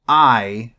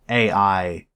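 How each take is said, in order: First: It is said as the single sound 'eye'. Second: It is said as two letters, 'A' 'I'. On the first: The speaker calls it right. "why is it pronounced I" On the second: The speaker calls it wrong. "and not A I"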